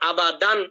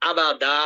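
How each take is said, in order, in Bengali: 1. শব্দটি পূর্ণ 'an' ধ্বনি দিয়ে শেষ হয়। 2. শব্দটি 'n' ছাড়া লম্বা 'a' দিয়ে শেষ হয়। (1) "প্রথম পর্ব কিভাবে" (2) "দ্বিতীয়বার পড়বো আবাদা"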